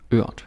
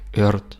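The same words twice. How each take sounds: First: The R is a soft Danish extension sound. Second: The R is pronounced like an English R. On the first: The speaker calls it right. "And then you got ørt" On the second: The speaker calls it wrong. "don't be tempted to say something like ørt or erd or erd like in English"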